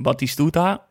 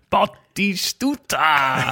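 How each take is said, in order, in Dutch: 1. De naam wordt rustig en vlak uitgesproken. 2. De naam wordt luid en opgewonden geroepen. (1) "Gewoon Batistuta" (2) "als ze dat een kans hadden"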